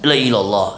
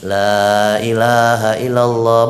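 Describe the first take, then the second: First: The middle syllables are dropped and the phrase is clipped. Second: Every syllable of the phrase is said in full. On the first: The phrase is being toyed with. The speaker calls it wrong. "Tapi jangan dimainin. ... Nah ini yang masalah" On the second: The phrase is recited properly. The speaker calls it right.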